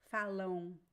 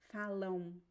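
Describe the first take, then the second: The two takes are said the same way.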